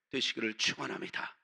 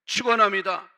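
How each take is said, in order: First: Said in the usual way. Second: Emphatic blessing. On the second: Real, not acted.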